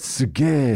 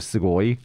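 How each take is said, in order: First: The word ends in a clipped 'eh' sound. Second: The word ends in a full 'oi' sound. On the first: This is the casual everyday form. "like everybody says suge" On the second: This is the full standard form. "instead of sugoi"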